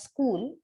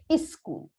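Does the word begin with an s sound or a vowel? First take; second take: s sound; vowel. First: The word begins directly with the s sound. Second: A vowel sound is added before the s. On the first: "they don't pronounce the word as school" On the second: "They bring in one element of vowel sound. They say is school"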